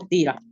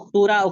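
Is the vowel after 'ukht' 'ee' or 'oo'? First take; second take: ee; oo. First: The vowel after 'ukht' is an 'ee' sound. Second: The vowel after 'ukht' is an 'oo' sound. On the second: "इसी तरह उख्तुरा"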